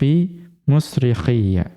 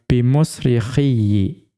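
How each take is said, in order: First: The doubled final y ends with an 'a' vowel. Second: The doubled final y ends with an 'i' vowel. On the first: This is the reading of most reciters. "membaca fathah ya tadi musrikhiyya itu dengan musyaddadah" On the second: "membacanya dengan mengkasrohkan ya yang dibaca dengan tasydid"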